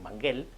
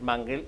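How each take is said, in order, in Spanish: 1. El acento cae en la última sílaba. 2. El acento cae en la primera sílaba. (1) "se escribe sin acento, y por tanto tendría que leerse correctamente en correcto castellano como Manguel" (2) "pues no, es Mangel"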